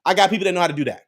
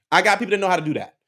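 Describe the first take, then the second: No difference in how they are said.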